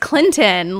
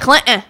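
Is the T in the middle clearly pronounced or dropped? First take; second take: pronounced; dropped. First: The middle T sound is clearly pronounced. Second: The middle T sound is swallowed, not clearly released. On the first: The speaker calls it right. "no, it's Clinton. Like, there's a T in there" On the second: The speaker calls it wrong. "I'm going to Clinton"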